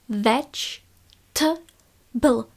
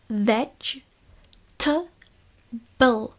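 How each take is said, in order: The two takes are said the same way.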